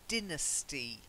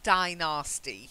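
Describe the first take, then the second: First: It starts with 'din', without a 'nasty' sound. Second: The middle sounds like the word 'nasty'. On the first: The speaker calls it right. "I would say just uh, Tang Dynasty" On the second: The speaker calls it wrong. "not Dynasty. If you say Dynasty, yeah, it's more a nasty death"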